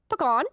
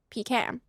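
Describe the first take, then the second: First: The last syllable does not sound like 'can'. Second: The last syllable sounds like the word 'can'. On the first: The speaker calls it wrong. "You sound like a bird if you say pecan" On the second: The speaker calls it right. "It's pecan. Like you can"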